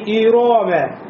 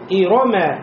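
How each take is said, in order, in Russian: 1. Вторая гласная тянется долго. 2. Все гласные короткие. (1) "как будто после ро появился алиф, нельзя" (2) "и не тянем"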